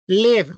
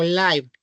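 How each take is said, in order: First: "Live" with an i sound, "liv"; first pronunciation. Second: "live" with an eye sound, "laiv"; alternative pronunciation. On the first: Teacher offering two readings, "Live" said as "liv". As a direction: say "Live" to rhyme with give. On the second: Teacher offering two readings, "live" said as "laiv". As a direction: say "live" to rhyme with five. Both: Shown as a demonstration. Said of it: "Live o live".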